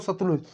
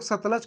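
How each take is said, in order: First: "सतलुज" with a "u" in the last syllable, sat-luj; variant pronunciation. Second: "सतलज" with an "a" in the last syllable, sat-laj; variant pronunciation. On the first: Teacher showing students the other common form, "सतलुज" ending in -luj. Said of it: "तो कुछ लोग सतलुज". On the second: Teacher showing students how some people say it, "सतलज" ending in -laj. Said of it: "कुछ लोग सतलज कहते हैं". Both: Shown as a demonstration.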